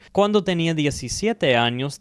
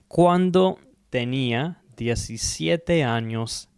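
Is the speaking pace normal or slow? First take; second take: normal; slow. First: It is spoken at an ordinary conversational speed. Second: It is spoken more slowly than ordinary speech. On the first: "I'm going to say it just a normal pace first" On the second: "one more time, just slower"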